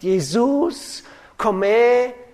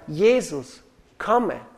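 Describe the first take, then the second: First: The words carry unnatural, misplaced syllable stress. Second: The words carry natural, normal syllable stress.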